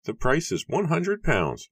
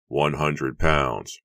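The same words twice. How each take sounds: First: Very high, louder, unemotional character voice; high-pitched, matter-of-fact bargainer; Matthew announcing flatly. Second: Slow, louder cry of surprise; drawn-out, incredulous outcry; shocked cry. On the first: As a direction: announce the price coolly in a high register. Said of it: "Matthew announced flatly". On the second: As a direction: stretch it out, unable to hide surprise. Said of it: "William cried". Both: A narrator's reading.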